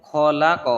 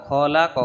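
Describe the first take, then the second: Both takes have the same delivery.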